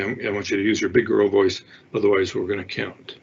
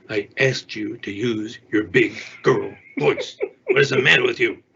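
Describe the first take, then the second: First: Steady, even parent voice, no heat; calm. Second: Exasperated. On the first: Calm parent setting a limit with a whining three-year-old. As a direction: state it once, calmly and evenly. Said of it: "And so stay calm". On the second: Exasperated parent losing it with a whining child. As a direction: let the irritation build into a scolding. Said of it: "now we're taking off into the, you know, emotional hysteria". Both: Shown as a demonstration.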